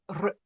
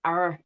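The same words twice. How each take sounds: First: "r" with a rolling trill; a trilled Scottish "r"; rolled R. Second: Soft R, unrolled, gliding round it; a rounded, untrilled "R". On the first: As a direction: roll the "r" hard. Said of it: "rather than r". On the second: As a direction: say "R" smooth, no trill. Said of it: "to not, uh, roll the R's, but to". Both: Shown as a demonstration.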